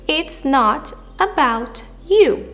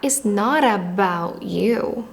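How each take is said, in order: First: Each t is pronounced clearly and separately. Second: The t in not is tapped and linked forward. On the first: "A pronúncia perfeitinha ... sem estudar sotaque americano" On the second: "com sotaque americano ... esse T vira R e junta com a próxima vogal"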